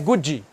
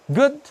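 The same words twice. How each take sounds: First: An extra 'i' vowel is added at the end. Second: The word ends cleanly without an extra vowel. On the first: The speaker calls it wrong. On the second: The speaker calls it right.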